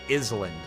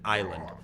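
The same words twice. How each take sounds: First: The S in the word is pronounced. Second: The S in the word is silent. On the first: The speaker calls it wrong. "I would always pronounce it as D K Island" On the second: The speaker calls it right. "you pronounce it Island"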